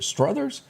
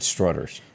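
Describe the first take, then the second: First: The middle consonant is a th sound. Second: The middle consonant is a plain t sound. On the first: The speaker calls it right. "She said I pronounced it is is it Struther, Struthers?" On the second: The speaker calls it wrong. "I always said Strutters"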